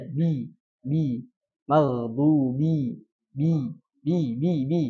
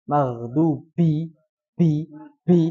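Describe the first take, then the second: First: Bi said plainly without extra air; clean ba. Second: Maghdubi with a puff of air on bi; breathy ba. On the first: Teacher demonstrates the correct clean ba for students. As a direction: keep the b in bi crisp, no puff. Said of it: "Jadi biasa aja". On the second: Teacher demonstrates the wrong breathy ba for students. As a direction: blow out air on the bi. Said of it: "Suaranya mengembus nih". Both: Shown as a demonstration.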